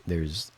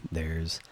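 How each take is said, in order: Both takes have the same delivery.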